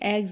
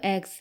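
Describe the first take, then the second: First: The word ends with a z sound. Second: The word ends with an s sound. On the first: The speaker calls it right. "जबकि ये एग्स होते हैं" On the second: The speaker calls it wrong. "इसे S लगा देते हैं तो एग्स"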